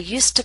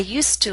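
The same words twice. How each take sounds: First: The word 'to' is reduced to a quick t. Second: The word 'to' keeps its full vowel sound. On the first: "we do not pronounce used to with a full vowel sound. To becomes t" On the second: "we keep the full vowel sound when the structure is followed by a vowel sound"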